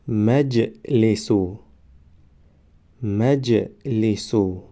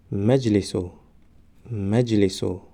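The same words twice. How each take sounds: First: مجلسو stretched very slowly, syllable by syllable; drawn-out demo. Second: Said in the usual way. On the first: Shown as a demonstration. Teacher modelling the word for students, very slow. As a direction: draw out مجلسو slowly for the class. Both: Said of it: "ما باید همان حرف را فقط آوازش را تلفظ کنیم".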